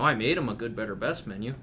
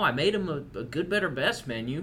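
First: It is spoken in the speaker's plain accent. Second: It is spoken in a put-on Southern accent. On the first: "Is that more palatable for you?" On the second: "Why did you use a southern accent?"

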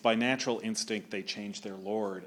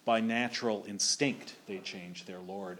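First: The stress in 'instinct' falls on the first syllable. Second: The stress in 'instinct' falls on the second syllable. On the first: This is the modern American pronunciation. The speaker calls it wrong. "if you do it in modern Merkin" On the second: This is the 17th-century pronunciation that fits the meter. The speaker calls it right. "instinct was always stressed on the stinct"

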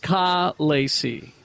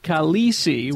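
First: The stress is on the first syllable. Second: The stress is on the second syllable. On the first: The speaker calls it right. "it's Khaleesi" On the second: The speaker calls it wrong. "Instead of Khaleesi, which is what we're saying"

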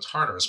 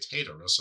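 First: The r sound is clearly pronounced. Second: The r sound is left out. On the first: "there's an R there, so I'm with you on the Tartarus" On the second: "a lot of people say Tartarus, and there's no R"

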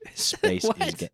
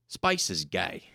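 First: It is said in the speaker's own accent. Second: It is said with an imitated Australian accent. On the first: The speaker says it himself. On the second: Someone else said it.

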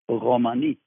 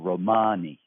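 First: The stress is on the last syllable. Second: The stress is on the middle syllable. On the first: This is how speakers of the language say it. "but at least the stress is, it's Romani, the way we say it" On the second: This is how one regional dialect says it. "the Hungarian Romani dialect of the language puts the stress in the middle"

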